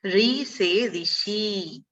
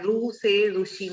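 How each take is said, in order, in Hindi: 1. यह अक्षर 'ri' जैसा बोला जाता है। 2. यह अक्षर 'ru' जैसा बोला जाता है। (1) "इसका उच्चारण रू नहीं है, री है" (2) "इसको अधिकतर लोग क्या कहते हैं, रू कहते हैं"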